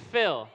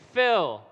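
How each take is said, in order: First: Loud cue again. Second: Loud cue word. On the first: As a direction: call it for the repeat. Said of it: "Try it again". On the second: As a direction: call fill out loud. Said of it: "say after me". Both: Shown as a demonstration.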